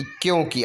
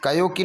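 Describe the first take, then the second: First: क्यों की with k fused into yo; half k. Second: कयो की with separate ka-yo; full ka. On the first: Teacher giving the correction, क्यों की with half k. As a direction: run k straight into yo in क्यों. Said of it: "आधा का रहेगा". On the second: Teacher showing the error, कयो की as ka-yo-kee. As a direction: give कयो a whole first syllable. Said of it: "नहीं बल्कि". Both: Shown as a demonstration.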